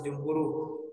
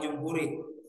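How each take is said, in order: First: The word ends in an u vowel. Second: The word ends in an i vowel. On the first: The speaker calls it right. "Kenapa dibaca jumhuru?" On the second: The speaker calls it wrong. "apalagi jumhuri"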